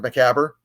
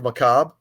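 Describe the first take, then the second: First: Macabre is said with a misread, anglicized pronunciation. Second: Macabre is said with its French-style pronunciation. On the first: The speaker calls it wrong. "as I pronounced it when I before I, I learned the the uh, correct pronunciation" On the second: The speaker calls it right. "correct pronunciation"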